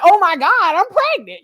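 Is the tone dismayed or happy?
happy. It sounds happy and excited.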